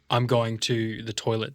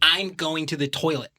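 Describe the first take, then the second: First: An Australian accent, spoken from the throat. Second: An American accent with higher, nasal inflection. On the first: "Ours is we talk in the back of our throat" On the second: "they have a higher inflection when they talk"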